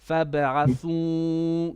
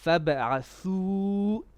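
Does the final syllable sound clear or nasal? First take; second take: nasal; clear. First: The final syllable is said through the nose. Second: The final syllable is said without nasal sound. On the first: The speaker calls it wrong. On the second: The speaker calls it right.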